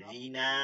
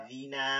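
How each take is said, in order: Both takes have the same delivery.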